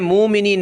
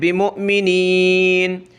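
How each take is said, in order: First: The word flows without a glottal catch. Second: A sharp glottal catch follows 'mu'. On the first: The speaker calls it wrong. "यहाँ हमने मुमिनीन नहीं पढ़ना" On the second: The speaker calls it right. "बल्कि हमज़ा पे झटका देना है"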